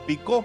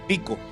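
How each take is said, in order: First: The stress is on the last syllable. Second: The stress is on the first syllable.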